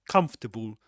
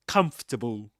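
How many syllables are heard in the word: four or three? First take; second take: three; three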